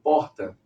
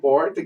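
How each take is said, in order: First: The R is trilled, southern Brazilian style. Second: The R is retroflex, caipira style.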